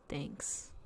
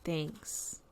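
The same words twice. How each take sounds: First: Whispered, much softer and lower; whispered thanks. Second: Much softer, lower murmured thanks; quiet thanks. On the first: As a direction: breathe it out with no voice. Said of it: "and the bear says". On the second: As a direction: barely say it, shy and low. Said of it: "And the bear says". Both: Acted.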